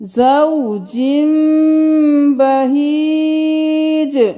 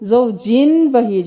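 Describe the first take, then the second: First: An m sound comes before the b. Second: A clear n sound comes before the b. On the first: The speaker calls it right. "यहाँ पे हम जिम करेंगे" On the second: The speaker calls it wrong. "नहीं करेंगे"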